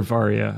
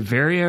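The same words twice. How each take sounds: First: "Varia" with an open "ah" first vowel; second pronunciation. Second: "Varia" with the first vowel as in "vary"; first pronunciation. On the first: Offering co-host the alternative, "Varia" as VAR-ee-a. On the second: Asking co-host how it is said, "Varia" as VAIR-ee-a. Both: Shown as a demonstration. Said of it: "is it Varia or Varia?".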